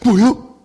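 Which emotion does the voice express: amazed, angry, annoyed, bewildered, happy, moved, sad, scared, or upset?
amazed. The voice sounds surprised. "놀랐을 때"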